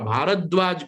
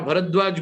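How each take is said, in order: First: The second vowel is long. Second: The second vowel is short. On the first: The speaker calls it right. "हमारा भारद्वाज गोत्र है" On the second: The speaker calls it wrong. "हमारा भरद्वाज गोत्र थोड़ी है"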